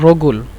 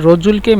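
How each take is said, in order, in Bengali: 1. মাঝের ব্যঞ্জনটি শক্ত 'g' ধ্বনি। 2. মাঝের ব্যঞ্জনটি 'j' ধ্বনি। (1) "এজন্য রগুল" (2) "রজুলকে মিশরের জিমকে গয়ন বলে"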